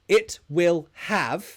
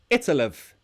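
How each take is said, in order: First: Will is said as a full separate word. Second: Will is shortened and joined onto it.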